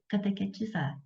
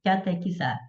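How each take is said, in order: First: Catequetizar with an extra te syllable, a mistaken form; slip of the tongue. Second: Catequizar said cleanly as ca-te-qui-zar; corrected word. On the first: Teacher slips while listing example words, mispronouncing it. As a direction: say catequetizar as the wrong longer word. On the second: Teacher corrects herself to students, careful correction. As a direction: give the correct catequizar after the slip. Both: Real, not acted.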